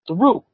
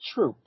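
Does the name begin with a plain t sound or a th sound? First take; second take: th; t. First: The name begins with a th sound. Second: The name begins with a plain t sound. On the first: The speaker calls it right. "Throop Street" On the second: The speaker calls it wrong. "not Troop"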